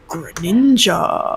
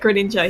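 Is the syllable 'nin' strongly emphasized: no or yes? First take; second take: yes; no. First: The syllable nin carries strong emphasis. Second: The syllable nin carries no special emphasis. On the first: "emphasis is on Nin" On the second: "He just doesn't say like Greninja"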